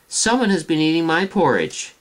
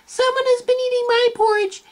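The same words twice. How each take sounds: First: The voice sounds medium in size and pitch. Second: The voice sounds tiny, high and small. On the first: "cried out in her medium-sized voice" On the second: "cried out in his tiny little voice"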